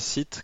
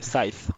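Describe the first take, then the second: First: The ending is said the French way, without a th. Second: The ending has a th with the tongue between the teeth. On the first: The speaker calls it wrong. "je prononçais Scythe comme un bon francophone de base" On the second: The speaker calls it right. "Le TH avec la langue entre les dents"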